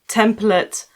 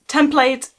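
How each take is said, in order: First: It is given the American pronunciation. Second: It is given the British pronunciation. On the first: "template in American English" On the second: "template in British English"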